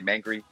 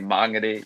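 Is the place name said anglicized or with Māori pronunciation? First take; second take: anglicized; Māori. First: The name is said with an anglicized pronunciation. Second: The name is said with a Māori pronunciation. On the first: The speaker calls it wrong. "sometimes I always want to say Mangere" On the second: The speaker calls it right. "but I know that I have to say Māngere"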